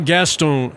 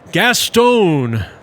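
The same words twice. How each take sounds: First: The name is said the English way. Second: The name is said the French way.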